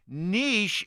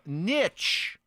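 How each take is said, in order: First: It is said the way favored in British English. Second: It is said the traditional American way. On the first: "the pronunciation favored in British English" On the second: "the older, more traditional pronunciation, especially common in American English"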